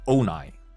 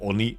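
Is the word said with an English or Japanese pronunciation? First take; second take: English; Japanese. First: It is said the English way, ending in 'eye'. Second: It is said with Japanese vowels, ending in 'ee'. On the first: "just read them Anglo style" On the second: "having to switch to Japanese pronunciation"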